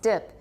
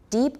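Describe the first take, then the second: First: The vowel is a short i sound. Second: The vowel is a long ee sound. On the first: The speaker calls it wrong. "gets pronounced dip" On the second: The speaker calls it right. "deep often gets pronounced dip"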